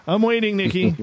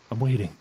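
First: High, loud mock-impatient call; playful impatience. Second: Said in the usual way. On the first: Host calls to Nikki for her late paragraph, playfully impatient. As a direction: call out in teasing, pretend impatience.

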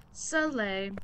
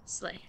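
First: "Slay" stretched into two syllables, suh-lay; drawn-out slay. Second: Said in the usual way. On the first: Real, not acted. Streamer cheering themselves on, "Slay" stretched to suh-lay. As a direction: draw "Slay" out with a vowel after the S.

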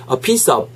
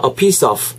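First: First "of" closed like a b, without friction; stopped final sound. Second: "of" ending with audible friction; scraped final sound. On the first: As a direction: shut "of" off as "ob". ("of"를 '옵'처럼 막아서) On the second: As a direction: let "of" end in a scraped consonant. ("of" 끝을 긁는 소리로) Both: Shown as a demonstration. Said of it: "발음 자체가 다르잖아요".

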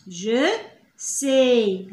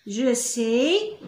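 First: "Je" then a pause, then "sais." falling; split slowly. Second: Said in the usual way. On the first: Shown as a demonstration. Teacher to pupils, breaking the phrase apart slowly.

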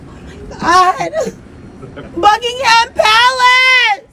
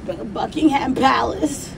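First: "Buckingham Palace" slow, high and louder, drawn out; excited. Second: Said in the usual way. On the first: Shown as a demonstration. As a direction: savour the words like a dream come true.

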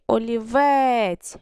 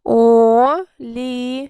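First: Олівець with a long, leaned-on final вець; one connected олівець, last syllable held; stress on last syllable. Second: Олівець drawn out syllable by syllable, loud; clap-it-out syllable division of олівець; split into syllables. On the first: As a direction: stretch and stress the end of олівець. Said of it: "Який наголошений склад?". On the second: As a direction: break олівець slowly into three separate syllables. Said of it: "Ділимо на склади". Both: Shown as a demonstration.

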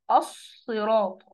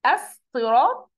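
First: Slow, falling "الصراط" with a heavy, full ص; emphatic sad. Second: Slow, rising "الصراط" with a thin س in place of ص; wrongly light seen. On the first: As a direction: fill the mouth with air on the ص of "الصراط". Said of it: "أنا بطلع الحرف مفخم". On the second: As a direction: say "الصراط" as if spelt with a plain s. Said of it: "هتحس أنت وأنت بتنطق". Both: Shown as a demonstration.

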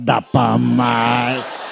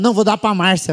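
First: Very slow, low echo; low drawn-out retort. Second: Said in the usual way. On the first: Acted. Son answering mother back, low slow drawl. His mocking reply to mother.

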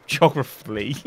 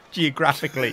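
First: "geographically" said as "geo-gruh-flee", a syllable missing; botched pronunciation. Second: Said in the usual way. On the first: Real, not acted. Failing once more at "geographically", botched pronunciation. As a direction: drop the "ic" from "geographically". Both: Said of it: "That's what I'm trying to say".

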